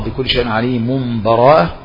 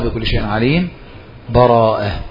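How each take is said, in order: First: The last word is joined on with no break. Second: A full stop with a breath comes before it. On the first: "إما الوصل" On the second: "أو الوقف"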